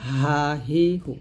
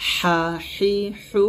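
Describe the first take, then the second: First: "হা হি হু" slow, with a light open h; light soft h. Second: "হা হি হু" slow and higher, with pressed friction; pressed Arabic Ha. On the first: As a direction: let "হা হি হু" out easily without pressure. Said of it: "শুরু থেকে উচ্চারণ করতে হবে হালকা করে". (হালকা করে "হা হি হু") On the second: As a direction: squeeze thin air through each long "হা হি হু". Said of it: "এই হাটা আমরা চাপ দিয়ে বলবো". (চাপ দিয়ে "হা হি হু") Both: Shown as a demonstration.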